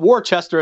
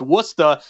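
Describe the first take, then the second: First: It is said with a general, non-local pronunciation. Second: It is said with a New England pronunciation.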